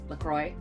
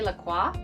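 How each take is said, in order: First: The name is said with an English-style pronunciation. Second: The name is said with a French-style pronunciation. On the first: This is how the brand itself says it. "they pronounce it LaCroix, very anglicized" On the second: This is how the speaker would naturally say it. "I would say La Croix"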